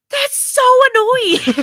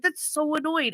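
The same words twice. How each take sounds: First: Loud, high, drawn-out whine; exasperated outburst. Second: High but restrained complaint; mild exasperation. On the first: Parent fed up with a child changing her mind, exasperated. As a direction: wail it in mock exasperation. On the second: Parent retelling annoyance at child, mildly exasperated. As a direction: retell the annoyance without shouting. Same outburst retold more mildly. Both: Retold or imitated.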